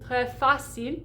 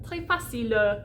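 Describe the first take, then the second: First: The word ends on the consonant, no vowel. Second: An extra schwa vowel follows the final consonant. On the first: The speaker calls it right. "It's très, très, sorry, très facile" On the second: The speaker calls it wrong. "It wouldn't be like très facile"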